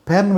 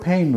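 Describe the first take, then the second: First: "పెన్" with a short, plain e; short vowel. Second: "పెయిన్" with an e gliding into i; gliding vowel. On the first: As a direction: keep "పెన్" to one brief vowel. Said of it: "పెన్ వేరు, పెయిన్ వేరు". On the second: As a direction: draw "పెయిన్" out as "peh-een". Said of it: "పెయిన్ వేరు". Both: Shown as a demonstration.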